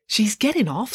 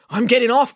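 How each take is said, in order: First: Said in the usual way. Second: High, urgent cry; agitated insistence, pitched up. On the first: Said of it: "said Loretta". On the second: A narrator's reading. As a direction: cry it out, determined to escape. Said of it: "cried April".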